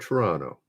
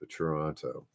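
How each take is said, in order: First: It is said the local way, second t dropped. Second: Both t sounds in Toronto are clearly pronounced.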